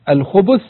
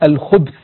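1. الباء متبوعة بضمة قصيرة. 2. الباء غير متبوعة بأي حركة. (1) "بعض الروايات جاءت بالضم" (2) "وهو أكثرها جاء برواية التسكين"

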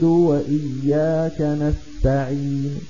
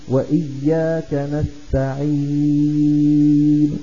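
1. الحركة التي قبل النون الأخيرة قصيرة. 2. الحركة التي قبل النون الأخيرة ممدودة. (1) "فلا نمده إلا بمقدار حركتين" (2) "لا يصح الجمع بين المد والروم"

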